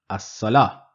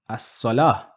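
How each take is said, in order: Both takes have the same delivery.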